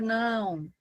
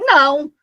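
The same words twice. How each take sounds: First: It is said in a calm, gentle tone. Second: It is said in an angry tone. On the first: The listener understands without feeling threatened. The speaker calls it right. "mas você não vai se sentir ameaçado, agredido por aquilo" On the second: The listener feels bothered or attacked. The speaker calls it wrong. "Se eu falo não com raiva"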